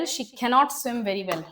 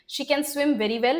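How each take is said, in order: First: Cannot pressed with a falling tune; stress on cannot. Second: Said in the usual way. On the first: Shown as a demonstration. Teacher marks cannot in the negative sentence. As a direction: lean on cannot, then fall.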